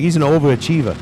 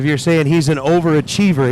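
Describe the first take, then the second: First: A hint of a New York overachievah; Peter's New York way. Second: Said in the usual way. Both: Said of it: "that's Peter's way of saying it".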